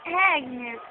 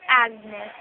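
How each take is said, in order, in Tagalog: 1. Binibigkas ang pangalan nang may pagka-arte at pa-fancy. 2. Binibigkas ang pangalan nang simple at karaniwan lang. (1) "basta lagyan niyo ng arte. Like Agnes" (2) "That's not Agnes"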